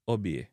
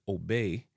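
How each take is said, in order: First: "obey" as "o-bieh"; hard O and "ie" glide in obey; Jamaican pronunciation. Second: "obey" as "oh-bay"; English pronunciation. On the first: Teacher giving the Jamaican version, "obey" as "o-bieh". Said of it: "in a Jamaican". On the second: Teacher giving the English word first, "obey" as "oh-bay". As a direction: say obey with English gliding vowels. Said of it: "obey in a English". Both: Shown as a demonstration.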